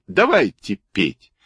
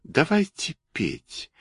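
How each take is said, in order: First: Brisk call, near the usual pitch; eager exclamation. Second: High, soft, slow cat; toy cat voice. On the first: Kurilka rallies the toys to sing, eager call. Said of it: "вскричал Курилка и вскочил". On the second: Toy cat invites the others to sing, high soft cat voice. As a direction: propose it in a small, high, drawn-out voice. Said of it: "Кошка сказала". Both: A narrator's reading.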